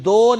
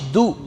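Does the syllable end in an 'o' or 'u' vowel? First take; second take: o; u. First: The vowel sounds like 'o'. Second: The vowel sounds like 'u'. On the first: The speaker calls it wrong. "दाल पेश दो नहीं होता" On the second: The speaker calls it right. "बल्कि दाल पेश दू"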